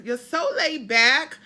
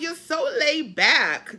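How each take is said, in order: First: Put-on slow, loud New England accent, rising at the end. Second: Slow, louder New England drawl; New England accent. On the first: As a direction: imitate a New Englander, stretch it out. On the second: Retold or imitated. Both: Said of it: "do my New England accent".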